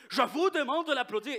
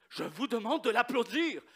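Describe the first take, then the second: First: Higher and louder, breaking into a laugh; louder repeated demand. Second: A firm, raised teacher's demand; stern professor ordering applause. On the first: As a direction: push the order harder and laugh through it. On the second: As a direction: insist the class applaud. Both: Retold or imitated. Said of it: "il chicane les étudiants".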